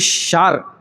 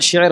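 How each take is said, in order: First: The word has a long 'aa' vowel. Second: The word has an 'e' vowel. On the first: The speaker calls it wrong. "शार नहीं होता" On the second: The speaker calls it right. "शेर होता है"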